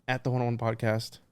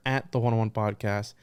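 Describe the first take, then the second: No difference in how they are said.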